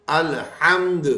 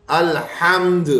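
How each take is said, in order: Both takes have the same delivery.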